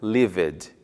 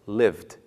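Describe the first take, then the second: First: An extra vowel sound comes before the final d. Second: The ending is a plain d with no vowel. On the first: The speaker calls it wrong. "e não lived, incluindo o som da vogal e" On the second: The speaker calls it right. "no passado pronuncia-se lived"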